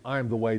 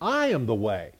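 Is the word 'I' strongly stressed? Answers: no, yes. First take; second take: no; yes. First: The word 'I' carries no special stress. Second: The word 'I' carries the main stress. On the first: It is one item in a list of descriptions. The speaker calls it wrong. "But we always read it" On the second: He himself is the way that was asked about. The speaker calls it right. "the right inflection on the sentence should be"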